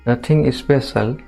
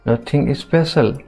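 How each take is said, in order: Both takes have the same delivery.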